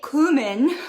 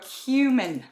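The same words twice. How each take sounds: First: The first syllable has a plain oo vowel. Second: The first syllable lacks the plain oo vowel.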